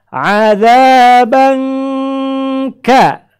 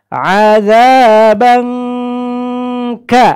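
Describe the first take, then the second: Both takes have the same delivery.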